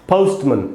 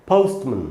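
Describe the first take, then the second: Both takes have the same delivery.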